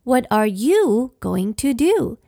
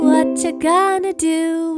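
First: It is said slowly, each word separate. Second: It is said fast, words run together.

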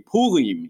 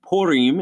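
First: The R is rolled, Hebrew style. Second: The R is a plain English R.

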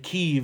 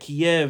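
First: The name is pronounced the Ukrainian way. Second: The name is pronounced the Russian way. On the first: "Kyiv is the way of the Ukrainian way of saying it" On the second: "Kyiv is the Russian way of saying it"

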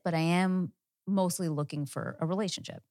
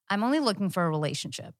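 First: The voice sounds calm and relaxed. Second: The voice sounds tense and closed off.

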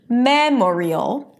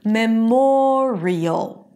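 First: The stress falls on the first syllable. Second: The stress falls on the second syllable. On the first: The speaker calls it wrong. "the stress does not remain on the first syllable" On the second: The speaker calls it right. "It shifts to the one syllable before the suffix"

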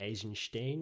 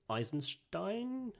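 First: The name is pronounced in a Russian style. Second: The name is pronounced in an English style.

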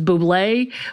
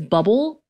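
First: The word ends with an ay sound. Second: The word ends with an l sound. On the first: "that commercial, which is [name]" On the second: "in my head, it is bubble"

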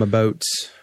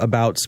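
First: The vowel is softened in a Canadian accent. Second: The vowel is said in a plain accent.

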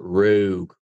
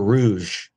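First: It is said like the word rogue. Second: It is said like the word rouge. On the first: The speaker calls it right. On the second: The speaker calls it wrong.

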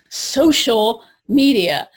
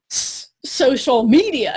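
First: The word social carries the stress. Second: The word media carries the stress. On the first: The focus is on connecting with others. The speaker calls it right. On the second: The focus is on broadcasting about yourself. The speaker calls it wrong.

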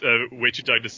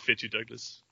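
First: The first name begins with a W sound. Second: The first name begins with an F sound. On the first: The speaker calls it wrong. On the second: The speaker calls it right.

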